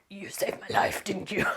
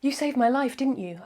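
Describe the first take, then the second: First: It is read in a hoarse, raspy voice. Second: It is read in an ordinary, clear voice. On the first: The speaker calls it right. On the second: The speaker calls it wrong.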